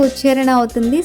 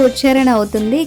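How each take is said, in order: Both takes have the same delivery.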